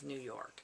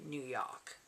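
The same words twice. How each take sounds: First: It is said in a neutral, unmarked accent. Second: It is said in a strong New York accent. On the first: "instead of" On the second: "what I know people consider to be a New York accent"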